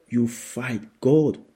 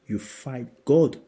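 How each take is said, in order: Both takes have the same delivery.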